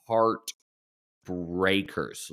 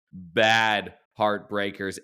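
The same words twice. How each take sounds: First: Heartbreakers stretched very slow; drawn out. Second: Bad punched, bad heartbreakers said slowly; stress on bad. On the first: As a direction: linger on heartbreakers, slowly. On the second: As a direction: lean hard on bad, slow. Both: Real, not acted.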